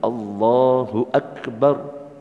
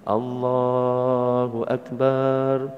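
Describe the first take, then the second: First: The vowel in 'bar' is short. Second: The vowel in 'bar' is long. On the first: The speaker calls it right. "Yang benar Allahu Akbar. Barnya itu pendek" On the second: The speaker calls it wrong. "orang takbiran banyak yang salah"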